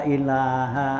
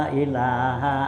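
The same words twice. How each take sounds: Both takes have the same delivery.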